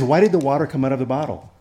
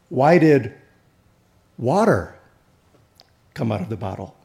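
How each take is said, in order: First: The stress is on the word out. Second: The stress is on the word water.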